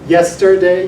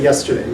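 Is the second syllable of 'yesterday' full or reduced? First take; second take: full; reduced. First: The middle syllable is pronounced fully and slowly. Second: The middle syllable is reduced to a quick schwa. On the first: "you could if you're speaking very slowly" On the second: "you just say yesterday"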